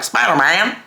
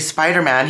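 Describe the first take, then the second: First: It is said in a Southern accent. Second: It is said in a standard accent.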